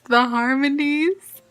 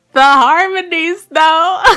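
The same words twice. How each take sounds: First: Drawn-out, savouring "the harmonies"; gushing. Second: Loud, high, drawn-out "the harmonies though"; emphatic gushing. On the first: Vlogger raving about her cover, gushing slowly. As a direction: gush slowly over "the harmonies", holding back a little. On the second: Vlogger raving about her cover, gushing loudly. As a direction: belt out "the harmonies though" in delight. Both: Real, not acted.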